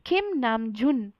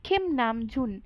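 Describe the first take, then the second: Both takes have the same delivery.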